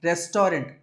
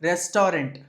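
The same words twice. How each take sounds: Both takes have the same delivery.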